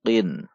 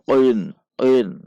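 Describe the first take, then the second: First: Said in the usual way. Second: "qin" dibunyikan terlalu menceklok, agak keras; contoh salah menceklok. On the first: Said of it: "Namun biasa saja". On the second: Shown as a demonstration. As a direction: ucapkan "qin" dengan pantulan qaf berlebihan. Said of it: "Tidak dibaca terlalu menceklok seperti". ("qin" dibaca menceklok berlebihan)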